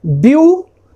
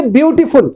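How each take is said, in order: First: "beautiful" in three parts, byu, ti, ful, with long pauses; split into syllables. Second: Said in the usual way. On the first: Shown as a demonstration. Teacher parting the word for students, syllable by syllable. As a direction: break "beautiful" apart syllable by syllable. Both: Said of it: "इसको यदि हम part करेंगे".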